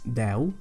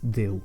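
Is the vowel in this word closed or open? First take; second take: open; closed. First: The vowel E is pronounced open. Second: The vowel E is pronounced closed. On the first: It means the number ten. The speaker calls it right. "try to use an open E" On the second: It means God. The speaker calls it wrong. "A closed E would be Déu"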